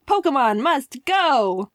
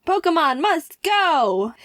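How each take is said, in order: First: Slow slogan read. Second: Slow, higher "Pokemon must go"; proud slogan cheer. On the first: Retold or imitated. Reading Misaki's slogan. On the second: Real, not acted. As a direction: proclaim it like a triumphant slogan. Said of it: "He also used his Pokemon one too".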